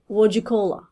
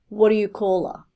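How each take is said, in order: First: The T and D run together into one sound. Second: Each word is said fully and separately. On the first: "run T and D together, so it will sound like" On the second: "At least learn this one"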